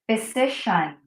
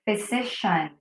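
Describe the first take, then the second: The two takes are said the same way.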